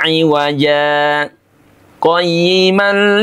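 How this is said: A brief stop separates the two words. The speaker calls it right. "wajib sakta"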